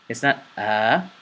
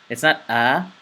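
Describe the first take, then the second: The two takes are said the same way.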